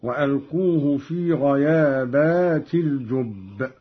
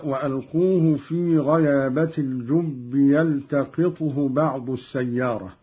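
First: غيابات with the long a, ghayabat; Qalun plural reading. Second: Said in the usual way. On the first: Shown as a demonstration. Teacher shows Qalun's plural غيابات. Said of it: "قرأ قالون بالجمع هكذا". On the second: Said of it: "هكذا".

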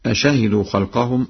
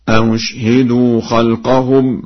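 First: Said in the usual way. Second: Slow recitation, "أشهدوا" with an eased u after the first hamza; Warsh reading. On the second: Shown as a demonstration. Teacher demonstrates Warsh's reading, "أشهدوا" chanted as a-ushhidu. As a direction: chant "أشهدوا" as a-ushhidu, softened second hamza, silent shin. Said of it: "مضمومة مسهلة بين بين".

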